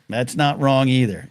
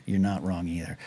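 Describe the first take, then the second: First: Said in the usual way. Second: Much softer, lower muttered repeat; quiet aside. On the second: Real, not acted.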